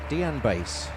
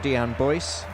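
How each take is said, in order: First: The surname has an 'a' vowel, like Bass. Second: The surname has an 'oy' vowel, like Boyce. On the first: The speaker calls it right. "but it's uh, Dean Bass" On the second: The speaker calls it wrong. "the announcers call him Dean Boyce"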